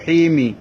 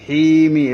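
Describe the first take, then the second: First: The long vowel is short, running into -mi. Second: The long vowel is short, running into -mi.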